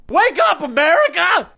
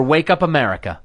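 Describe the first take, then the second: First: High-pitched catchphrase yell; rallying cry. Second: Said in the usual way. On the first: Acted. Host opening a rant segment at America, rallying cry. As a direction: holler it to rouse a nation.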